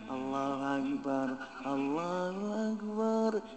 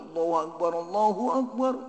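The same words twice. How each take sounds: First: The call is slow and drawn out. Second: The call is quick and loud. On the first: The speaker calls it wrong. "Jangan begitu ada" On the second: The speaker calls it right. "Jangan lama, jadi lebih cepat itu, tapi lebih keras"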